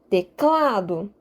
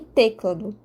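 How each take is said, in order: First: The stress is on the middle syllable. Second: The stress is on the first syllable. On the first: The speaker calls it right. "Aqui eu estou enfatizando o K" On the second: The speaker calls it wrong. "não é o T que eu estaria a enfatizar"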